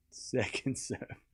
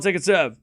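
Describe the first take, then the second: First: Slow, much softer "Second serve", drawn out like a hushed commentator. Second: Said in the usual way. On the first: Pretend. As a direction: whisper the call as if not to disturb the players. Quiet slow repeat of call.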